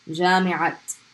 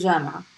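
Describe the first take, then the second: First: The word ends with a clear t sound. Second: The word ends in a vowel, no t sound. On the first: The word is joined to the following word in a phrase. "pronounce the ta" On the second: The word stands alone. "You don't pronounce it"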